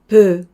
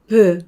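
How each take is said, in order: Both takes have the same delivery.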